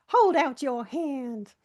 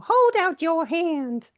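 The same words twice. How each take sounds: First: Slow, drawn-out granny voice; a hint of an old granny offering a treat; old granny impression. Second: Put-on high, loud, slow old granny; old granny impression. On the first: Retelling a friend's biscuit routine, slow old granny voice. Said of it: "doing an impression of that old granny". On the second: Friend offering a biscuit at break, high slow granny voice. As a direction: hold out the offer like a bossy granny. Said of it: "doing an impression of that old granny in".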